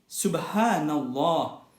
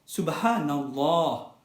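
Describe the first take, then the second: The two takes are said the same way.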